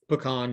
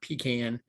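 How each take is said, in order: First: The first syllable does not sound like 'pea'. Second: The first syllable sounds like 'pea'. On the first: The speaker calls it right. "it's pecan" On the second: The speaker calls it wrong. "not pecan. pecan is what peas come in"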